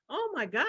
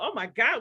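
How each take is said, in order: First: It sounds curious and intrigued. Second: It sounds critical and disapproving. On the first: The speaker finds the other person's words fascinating. The speaker calls it right. "we turn that curiosity into criticism. So instead of going" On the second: The speaker judges the other person's words harshly. The speaker calls it wrong. "We go, ... See what I just did there?"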